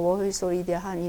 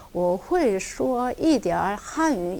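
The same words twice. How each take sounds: First: 我会说一点汉语 run together flat, tones blurred; 我会说一点汉语 said quickly without tones; careless tones. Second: 我会说一点汉语 slow, each tone exact; 我会说一点汉语 with precise tones, unhurried; 성조를 정확히 지키며; careful tones. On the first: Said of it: "그냥 我会说一点汉语 이러지 마시고요". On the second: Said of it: "성조를 좀 정확히 지키면서". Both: Shown as a demonstration.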